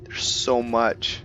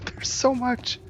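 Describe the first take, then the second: First: Said in the usual way. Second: Much higher, giddy squeal after a laugh. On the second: Real, not acted. Gamer overwhelmed by all the loot, squealing giddily.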